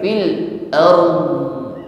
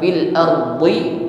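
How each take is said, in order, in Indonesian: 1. Kata itu berakhir pada konsonan yang ditahan dan berat. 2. Kata itu berakhir dengan tambahan vokal i pendek. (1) "sukun tertahan pada makhraj huruf mod" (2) "bukan dibaca dengan harokat kasrahnya"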